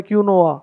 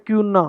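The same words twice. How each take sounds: First: क्यूनोआ in three syllables, kyu-NO-a; alternative mispronunciation. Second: क्यूना in two syllables, KYU-na; common pronunciation. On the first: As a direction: say क्यूनोआ with an added O. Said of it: "कोई बोलता है क्यूनोआ". (क्यूनोआ को 'क्यू-नो-आ' बोलें) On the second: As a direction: say क्यूना with a 'kyu' start. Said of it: "इसको हम बोलते हैं". (क्यूना को 'क्यू-ना' बोलें) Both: Shown as a demonstration.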